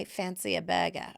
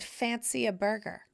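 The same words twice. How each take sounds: First: Badly faked Australian accent; half-hearted Aussie accent imitation. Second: Said in the usual way. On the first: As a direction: attempt an Australian accent, dropping the r. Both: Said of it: "I can't do the Australian accent".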